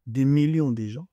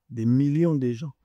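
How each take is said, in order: Both takes have the same delivery.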